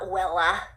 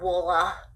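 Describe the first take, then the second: First: The first vowel sounds like 'eh'. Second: The first vowel sounds like 'ah'. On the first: "it's not Wella" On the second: "It's not Wolla"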